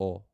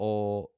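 First: The vowel is said short. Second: The vowel is drawn out long. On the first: "the short vowel sounds are" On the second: "Then we have the long vowel sounds"

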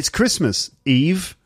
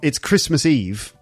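First: 'Eve' comes after a break from 'Christmas'. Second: 'Eve' runs on from 'Christmas' with no break. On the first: Someone is telling Eve that it is Christmas. "means, "Hey, Eve, it's Christmas."" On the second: It is the day before Christmas. "which means it's the day before Christmas"

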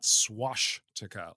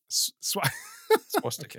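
First: The sound before the t is sh. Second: The sound before the t is s. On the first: The speaker calls it wrong. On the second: The speaker calls it right.

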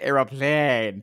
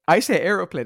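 First: The word is said with drawn-out, exaggerated vowels. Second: The word is said plainly with normal vowels. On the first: This mocks how the other person says it. The speaker calls it wrong. "You're putting about 5 different A's in plane now" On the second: This is how the speaker really says it. The speaker calls it right. "I say aeroplane"

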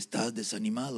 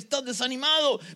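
First: It is said at a normal, plain volume. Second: It is said louder and with more force.

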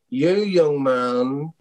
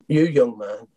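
First: It is said in an imitated, put-on voice. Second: It is said in the speaker's natural voice.

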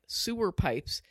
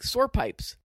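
First: The first word has two syllables, sounding like sewer. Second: The first word has one syllable, sounding like sore. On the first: "it didn't sound like sewer pipes" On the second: "It sounded like sore pipes"

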